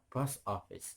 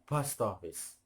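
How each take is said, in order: First: The two words are said with a break between. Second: The two words run together without a break. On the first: "Boleh pisah"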